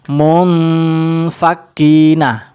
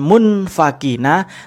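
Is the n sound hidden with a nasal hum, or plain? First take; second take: nasal hum; plain. First: The n is hidden with a held nasal hum. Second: The n is said plainly without a nasal hum. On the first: The speaker calls it right. "Ada samarnya, ada dengungnya. ... Saya perjelas" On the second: The speaker calls it wrong. "bukan munfakina"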